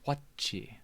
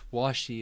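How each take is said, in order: First: The middle consonant is a 'ch' sound. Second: The middle consonant is a soft 'sh' sound. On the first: "They use chi" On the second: "instead of using like she"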